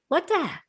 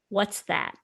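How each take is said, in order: First: The s sound after what is dropped. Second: The s sound after what is pronounced. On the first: "He'd be like" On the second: "He didn't say it like that"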